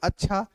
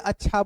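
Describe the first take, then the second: First: It is said as a question. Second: It is said as a plain statement. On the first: It asks about what was said. "यानी ये प्रश्नवाचक हो गया" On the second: It means okay or fine. "अच्छा का मतलब अगर यहाँ ठीक है"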